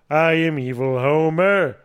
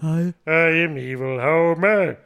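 First: The voice is close to the speaker's normal voice. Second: The voice is a strong cartoon-character impression. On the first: "I wasn't even trying to put a Homer voice on that much" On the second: "So here's full Homer"

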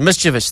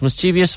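First: The word is said with three syllables. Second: The word is said with four syllables. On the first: "three syllables" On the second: "four syllables"

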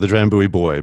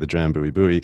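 First: Buoy is said without the American pronunciation. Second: Buoy is said with the American pronunciation.

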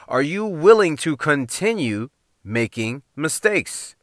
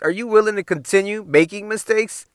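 First: The question is spoken at a slower pace. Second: The question is spoken at a normal pace.

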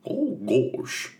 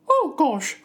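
First: It is said in a Goofy voice. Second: It is said in a Mickey Mouse voice.

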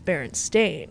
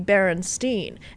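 First: The name ends with a 'stain' sound. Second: The name ends with a 'stine' sound. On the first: This is the current actual version. "and then this dimension, it's" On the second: This is the remembered older version. "It used to be"

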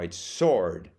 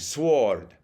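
First: The letter w is silent. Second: The letter w is sounded aloud. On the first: The speaker calls it right. "no, it's sword" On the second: The speaker calls it wrong. "she kept on saying"

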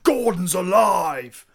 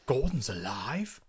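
First: It is shouted loudly. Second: It is said quietly.

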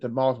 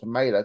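First: It is said with a British pronunciation. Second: It is said with an American pronunciation. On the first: The speaker calls it right. "I said tomato" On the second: The speaker calls it wrong. "not tomato, because I'm not American"

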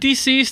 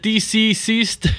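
First: It sounds like the ordinary word deceased. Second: The letters D and C are spelled out. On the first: The speaker calls it right. "Is it deceased" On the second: The speaker calls it wrong. "or is it DC-ceased?"

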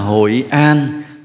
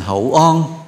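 First: It is said in a standard Vietnamese accent. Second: It is said in the local Hội An accent.

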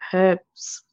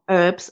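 First: The word is said in a non-American way. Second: The word is said the American way.

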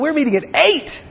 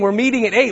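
First: It is said excitedly, like an exclamation. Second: It is said in a flat, plain way.

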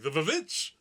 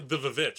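First: It is said with an exaggerated put-on accent. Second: It is said plainly, without an accent.

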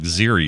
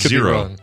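First: The second vowel sounds like 'ee'. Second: The second vowel sounds like 'oh'. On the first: The speaker calls it right. "You are correct" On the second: The speaker calls it wrong. "I always thought it was zero"

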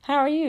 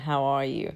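First: It is asked casually, as quick small talk. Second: It is asked sincerely, with real interest.

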